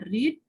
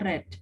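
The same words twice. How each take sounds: First: The vowel is long, rhyming with 'need'. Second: The vowel is short, rhyming with 'bed'. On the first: It is the base, present form of the verb. "Yang pertama dibacanya read" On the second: It is the past or past participle form of the verb. "yang kedua dan ketiga dibacanya read"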